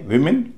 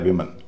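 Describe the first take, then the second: First: The second syllable has a full 'i' vowel. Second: The second syllable has a reduced 'uh' vowel. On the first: "आमतौर पर ई होता है" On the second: "कहीं कहीं अ भी बोला जाता है"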